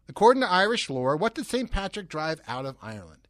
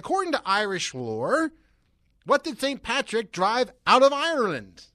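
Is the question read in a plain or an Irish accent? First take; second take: plain; Irish. First: It is read in a plain, unaccented voice. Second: It is read with a slight Irish accent. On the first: "I'm not going to try that" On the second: "I kind of did there a second"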